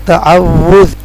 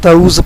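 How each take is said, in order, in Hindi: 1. यह ta-aw-wuz की तरह बोला जाता है, दोहरे w के साथ। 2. यह ta-uz की तरह बोला जाता है, w के बिना। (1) "इसको सही पढ़ेंगे तअव्वुज़" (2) "बहुत से लोग इसको तऊज़ पढ़ते हैं, वो गलत है"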